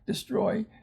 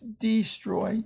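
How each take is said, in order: First: The first vowel is reduced to a schwa. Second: The first vowel is a long 'ee' sound. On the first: "When we say them pretty fast, though, they uh, reduce to a schwa" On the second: "it's destroy"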